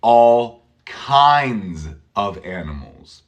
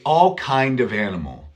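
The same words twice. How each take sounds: First: "all kinds of animals" slow, with clear z endings; careful plural. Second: "all kind of animal" without the plural s, as the wrong form; wrong singular. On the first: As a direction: stretch the plurals out slowly. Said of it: "You say". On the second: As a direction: model the mistake, no final s. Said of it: "you don't say". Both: Shown as a demonstration.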